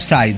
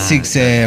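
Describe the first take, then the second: First: The name sounds like 'sai', one syllable. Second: The name sounds like 'psi-ke', two syllables. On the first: The speaker calls it wrong. "no Psy. Psy era el que cantaba" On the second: The speaker calls it right. "Sixe Volcánico, no Psy"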